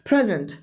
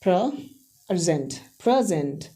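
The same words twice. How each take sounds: First: "present" as PREZ-unt, first syllable stressed; teacher's demo of "present" stressed on PRE. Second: "present" as pruh-ZENT, ZENT stressed; weak first syllable, hit ZENT in "present"; teacher's demo of "present" stressed at the end; second-syllable stress. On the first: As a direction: hit PRE in "present", weak ending. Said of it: "ये first syllable पे stress". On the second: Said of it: "second syllable पे stress कर देंगे". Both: Shown as a demonstration.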